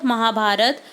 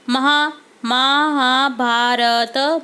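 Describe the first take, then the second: First: Said in the usual way. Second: महाभारत stretched very slowly, महा- first; slow dictation. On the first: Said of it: "teacher repeats normally". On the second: Shown as a demonstration. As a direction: dictate महाभारत slowly so kids can write. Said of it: "teacher dictates slowly".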